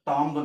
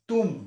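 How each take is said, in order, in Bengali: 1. শেষে একটি b ধ্বনি শোনা যায়। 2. শব্দটি m দিয়ে শেষ হয়, কোনো b নেই। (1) "এইটো টম্ব নহয়" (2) "বিটো চাউণ্ড মানে উজ্জ্ব হৈ যায়, চাইলেণ্ট হৈ যায়"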